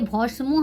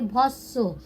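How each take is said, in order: First: The m sound is pronounced after the s. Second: The m is silent and the s is doubled. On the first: The speaker calls it wrong. "तो ये भस्मो हम लोग नहीं पढ़ेंगे" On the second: The speaker calls it right. "इसे हम लोग पढ़ेंगे भस्सो"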